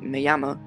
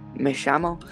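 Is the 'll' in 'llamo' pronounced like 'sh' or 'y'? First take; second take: y; sh. First: The double L sounds like a 'y'. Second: The double L sounds like 'sh'. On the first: "In Spain, double L is pronounced ya" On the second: "In Argentina, it's pronounced sh"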